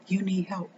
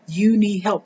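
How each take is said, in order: First: Near-silent, dropping the voice to almost nothing; hushed, as if to herself; softly. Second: Said in the usual way. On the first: Real, not acted. Mother speaking quietly to struggling parents, hushed. Quiet aside after describing tears.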